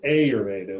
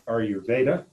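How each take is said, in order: First: The stress falls on the first syllable. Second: The stress falls on the late syllable 've'. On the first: The speaker calls it wrong. "as opposed to Ayurveda, which would be how an American would attack" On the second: The speaker calls it right. "I think the emphasis should be on Veda"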